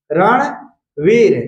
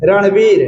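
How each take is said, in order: First: रणवीर said very slowly, each sound drawn out; slow careful pronunciation. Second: Said in the usual way. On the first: Shown as a demonstration. Teacher slowly demonstrating रणवीर to students. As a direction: spell out रणवीर slowly for the class. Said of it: "तो रणवीर पढ़ेंगे". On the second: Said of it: "जैसे में ये रणवीर लिखते हैं".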